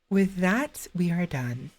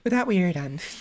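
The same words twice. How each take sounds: First: The voice resonates further back, not forward. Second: The voice resonates forward in the mouth. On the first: The speaker calls it wrong. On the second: The speaker calls it right.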